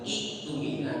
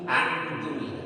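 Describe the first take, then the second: First: The word begins with an i and k sound. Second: The word begins with an a and k sound. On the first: "apalagi iktumina" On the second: "apalagi aktumina"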